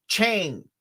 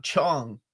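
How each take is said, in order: First: Chang with a long drawn "ay", like "chayng"; Southern pronunciation. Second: Chong with an open "ah" vowel; proper pronunciation. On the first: Explaining how Southerners say it, Southern vowel. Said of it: "I'm from the South". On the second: Contrasting with the Southern version, proper vowel. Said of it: "not Chong". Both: Shown as a demonstration.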